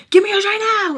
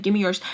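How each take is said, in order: First: Loud, high-pitched urgent demand; pissed-off shout. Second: Said in the usual way. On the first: Retold or imitated. Woman to Spice after her hair tie breaks, angry shout. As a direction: yell the demand, voice shooting up. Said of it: "I'm, like, pissed".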